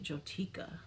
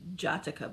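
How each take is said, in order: First: The first vowel sounds like 'oh'. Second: The first vowel sounds like 'ah'. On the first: The speaker calls it right. "but it's Jotica, right?" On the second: The speaker calls it wrong. "I always want to say Jatica"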